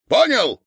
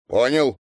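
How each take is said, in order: First: High, loud sharp question; worked-up check for obedience; stern demand. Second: Compliant reply. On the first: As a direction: demand an answer, loudly. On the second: Lad meekly answers. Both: A narrator's reading.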